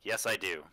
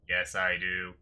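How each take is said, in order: First: It is said in the speaker's normal voice. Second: It is said in a put-on character voice.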